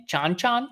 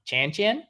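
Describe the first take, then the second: First: Chan-chan as "chahn-chahn"; broad "ah" in both halves of Chan-chan, questioning; pronunciation query. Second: Chan-chan with the short "a" of "cat"; Chan-chan rhymed with "man", higher and questioning; pronunciation query. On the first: Host guessing at a song title, Chan-chan said "chahn-chahn". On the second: Host offering the other guess, Chan-chan rhymed with "man". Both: Shown as a demonstration. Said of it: "How do you pronounce that?".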